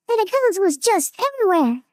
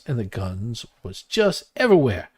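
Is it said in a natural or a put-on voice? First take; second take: put-on; natural. First: It is said in a put-on character voice. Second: It is said in his natural voice.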